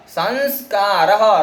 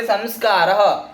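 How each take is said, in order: First: संस्कारः stretched slowly with a breathy ह at the end; slow visarga demo. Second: Said in the usual way. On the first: Shown as a demonstration. Teacher showing students the visarga, saying संस्कारः slowly. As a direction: drag out संस्कारः so the final ह is heard. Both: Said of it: "र के बाद विसर्ग दिख रहा है".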